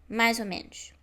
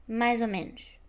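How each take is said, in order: The two takes are said the same way.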